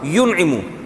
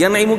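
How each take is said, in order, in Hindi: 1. पहले अक्षर में स्वर 'u' है। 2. पहले अक्षर में स्वर 'a' है। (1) "या पे जबर के बजाय पेश होगा" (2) "यनइमु के बजाय क्या होगा"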